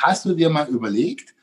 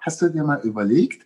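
First: It is said harshly and directly. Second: It is said softly and gently.

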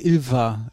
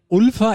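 First: The name begins with an 'i' vowel. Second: The name begins with an 'u' vowel.

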